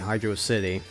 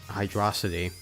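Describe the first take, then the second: First: The name is said as two separate words. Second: The name is said as one single word. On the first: "I pronounce it that way" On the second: "They make it into one word"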